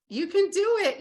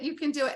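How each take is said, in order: First: High, loud burst of encouragement; rallying cry. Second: Said in the usual way. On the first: Real, not acted. Coach urging listeners on, loud excited cheer. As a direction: shout it out to fire them up.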